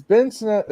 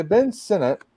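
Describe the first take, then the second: First: "Sinnott" slipped out as sih-NAT, stress late; mispronounced name. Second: "Sinnott" as SEN-it, stress first; corrected pronunciation. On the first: Co-host quoting a comment, fumbling "Sinnott" as snat. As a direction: say "Sinnott" squashed toward its last syllable. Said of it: "I'm gonna start trying to pronounce it correctly". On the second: Co-host correcting himself mid-quote, "Sinnott" as SEN-it. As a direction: say "Sinnott" like the word senate. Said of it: "trying to pronounce it correctly". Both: Shown as a demonstration.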